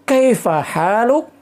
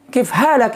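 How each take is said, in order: First: Full standard form with kaifa. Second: Shortened colloquial form with kif. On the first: "kalau yang fusanya" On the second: "tulisannya sama tapi cara bacanya biasanya kif halak"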